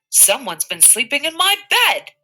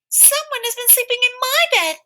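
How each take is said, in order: First: It is said in a great big voice. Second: It is said in a wee little voice. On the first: "in his great big voice" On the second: "he cried out in his wee little voice"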